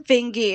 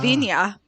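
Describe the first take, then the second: First: The name ends with a 'gee' sound. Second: The name ends with a 'yah' sound. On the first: This is how the family says the name. The speaker calls it wrong. "my family pronounces it incorrectly" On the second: This is how the name is said in Norway. The speaker calls it right. "it's supposed to be"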